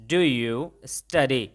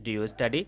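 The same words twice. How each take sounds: First: Very slow, word by word; slow model sentence. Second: Said in the usual way. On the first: Shown as a demonstration. Teacher shows students the English, very slowly. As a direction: spell it out slowly for learners. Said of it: "तो अंग्रेजी में कैसे बोला". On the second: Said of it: "मैंने आपसे simple सवाल पूछा".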